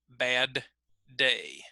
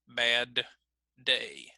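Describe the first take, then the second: First: The D is fully released before the second word. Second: The D is fully released before the second word.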